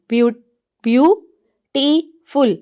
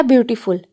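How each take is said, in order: First: beautiful in three slow beats, long pauses between; broken into syllables. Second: Said in the usual way. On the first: Shown as a demonstration. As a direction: say beautiful syllable by syllable, restarting on the first. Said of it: "के अंदर three syllables हैं". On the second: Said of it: "next word है".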